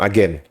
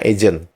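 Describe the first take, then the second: First: The word is said in the Indonesian way. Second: The word is said in an English-like way. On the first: It follows the Indonesian way. The speaker calls it wrong. "Kalau kalian menyebutkannya agen, berarti kalian mengikuti cara Indonesia" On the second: It follows the Malaysian adoption of the English word. The speaker calls it right. "Kalian harusnya menyebutkannya agent"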